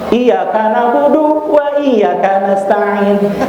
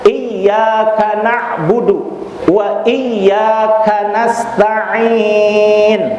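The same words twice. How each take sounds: First: The doubled consonants are cut short. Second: The doubled consonants are held long. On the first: The meaning changes into words of shirk. The speaker calls it wrong. "Ada nggak tasydidnya itu?" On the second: Only You do we worship and ask for help. The speaker calls it right. "Itu harus dibaca double"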